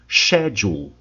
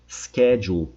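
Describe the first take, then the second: First: It is said with a British pronunciation. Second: It is said with an American pronunciation.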